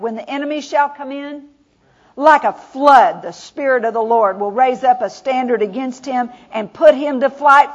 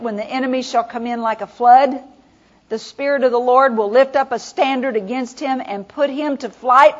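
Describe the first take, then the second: First: The pause comes after "in". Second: The pause comes after "flood".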